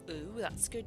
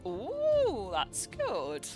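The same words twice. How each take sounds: First: It is said in the speaker's own voice. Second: It is said imitating the speaker's mum's voice.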